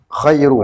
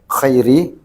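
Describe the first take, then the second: First: The word ends in a u vowel. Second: The word ends in an i vowel. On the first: The word is the predicate of an unstated subject, giving more honor. "Boleh juga rafa, dibaca dhamma" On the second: The word describes the Prophet as the best. "bil jarri, dengan jar"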